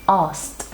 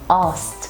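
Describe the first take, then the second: First: The sk consonant cluster is simplified and reduced. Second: The same.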